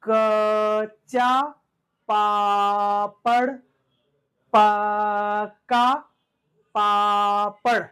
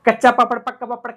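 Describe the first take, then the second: First: The first sound of each word is drawn out. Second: The phrase is said very quickly. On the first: "उसको हमें खींचकर बोलना है" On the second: "super fast"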